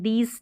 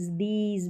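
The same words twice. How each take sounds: First: "दीज" said as "dees", voiceless s; wrong reading with S. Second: "दीज" with a voiced z at the end. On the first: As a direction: end "दीज" on s instead of z. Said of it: "दीज नहीं पढ़ते". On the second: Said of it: "एस ई का उच्चारण ज". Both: Shown as a demonstration.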